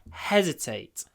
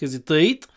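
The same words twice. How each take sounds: First: The stress is on the first syllable. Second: The stress is not on the first syllable. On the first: The speaker calls it right. "The stress is on the first syllable" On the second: The speaker calls it wrong. "It's not hesitate"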